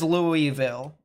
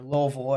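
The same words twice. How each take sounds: First: The city name is said as it is spelled. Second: The city name is said the local way.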